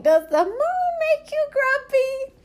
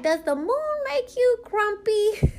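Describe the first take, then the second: First: Put-on very high, slow child's voice; imitating the niece again. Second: Put-on high, slow little-girl voice for the niece; imitating the niece. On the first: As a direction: copy the niece's innocent question, high and slow. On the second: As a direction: play the small niece asking innocently, high and slow. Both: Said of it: "she was like".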